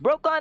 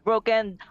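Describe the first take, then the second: First: The second syllable sounds like 'kon'. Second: The second syllable sounds like 'ken'. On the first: The speaker calls it right. "That's Brokon" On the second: The speaker calls it wrong. "not broken"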